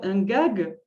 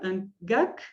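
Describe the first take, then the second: First: The word ends with a voiced g sound. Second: The word ends with a voiceless k sound.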